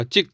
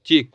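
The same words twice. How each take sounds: First: चिक with a short clipped i, like chick; चिक said as chick, chicken. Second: चिक with a long ee, like cheek; चिक said as cheek meaning गाल. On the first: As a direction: cut the vowel short in चिक. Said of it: "अगर आपने बोला". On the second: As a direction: stretch the vowel in चिक. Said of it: "इसे हम बोलेंगे चिक". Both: Shown as a demonstration.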